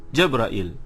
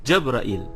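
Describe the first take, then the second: The two takes are said the same way.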